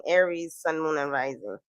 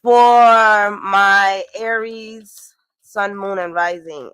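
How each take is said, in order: First: Softer and lower, tossed off; soft repeat. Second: Slow and loud, stretching out the first word; drawn-out announcement. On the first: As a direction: say it again quietly to yourself. Repeats sign call softly. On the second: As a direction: call the sign out like an announcer. Drawn-out opening call of sign. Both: Shown as a demonstration.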